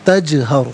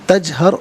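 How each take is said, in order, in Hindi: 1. j की आवाज़ हल्के झटके के साथ खत्म होती है। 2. j की आवाज़ बिना किसी झटके के सीधी रुक जाती है। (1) "आवाज़ लौटती भी महसूस होनी चाहिए" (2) "गलत"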